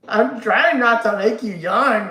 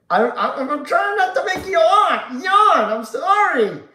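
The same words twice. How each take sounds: First: Slow, loud callback line; slow deliberate quote. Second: High loud laughing shout; laughing loudly. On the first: Shown as a demonstration. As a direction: drag it out as a reference. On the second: Real, not acted. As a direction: crack up while saying it. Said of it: "made me laugh".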